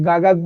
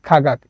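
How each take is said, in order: First: The first sound is a voiced g. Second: The first sound is an aspirated kh. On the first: The speaker calls it wrong. "আপনি যদি এটা গাগাক বলেন" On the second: The speaker calls it right. "তো সঠিক উচ্চারণ হবে খাগাক।"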